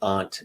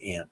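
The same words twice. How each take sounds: First: It has the New England pronunciation of aunt. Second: It has the New York pronunciation of aunt.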